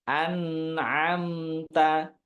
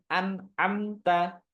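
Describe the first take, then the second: First: The n flows with a slight nasal hum. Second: The n is cut off abruptly and choppily. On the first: The speaker calls it right. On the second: The speaker calls it wrong.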